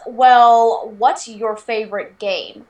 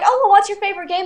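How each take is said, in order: First: It sounds skeptical, like a challenging test. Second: It sounds friendly and genuinely curious.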